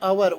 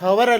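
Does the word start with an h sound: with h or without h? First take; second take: without h; with h. First: The word begins with a vowel, no h. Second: The word begins with an h sound. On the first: The speaker calls it right. "ಇದರ ಉಚ್ಚಾರ ಅವರ್. ಓನಿಂದ start ಮಾಡಬೇಕು, ಎಚ್ silent" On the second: The speaker calls it wrong. "ಇದು ಎಚ್ O ಯು ಆರ್ ಹವರ್ ಅಲ್ಲ"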